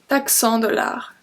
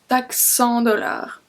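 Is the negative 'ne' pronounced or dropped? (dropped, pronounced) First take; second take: dropped; dropped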